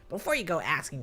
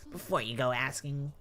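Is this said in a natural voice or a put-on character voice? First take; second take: character voice; natural. First: It is said in a put-on character voice. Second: It is said in a natural speaking voice. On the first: The speaker calls it right. "I gotta dial in the Jeffrey voice" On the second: The speaker calls it wrong. "Hold on, I gotta dial in the Jeffrey voice"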